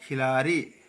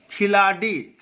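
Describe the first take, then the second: First: खिलाड़ी with a flapped r sound, lower; correct pronunciation. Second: खिलाड़ी with a hard d; wrong pronunciation. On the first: Teacher correcting the slip, correct pronunciation. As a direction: tap the r lightly in खिलाड़ी. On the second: Teacher showing the slip, wrong pronunciation. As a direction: make a hard d stop in खिलाड़ी. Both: Shown as a demonstration. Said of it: "खिलाड़ी नहीं".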